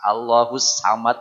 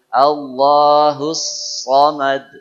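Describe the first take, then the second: First: The vowel after the s sounds like a. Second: The vowel after the s sounds like o. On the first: The speaker calls it wrong. "Jangan sampai sa. Allahus samad ya salah juga ya" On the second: The speaker calls it right. "Saya tidak monyong sedikit pun"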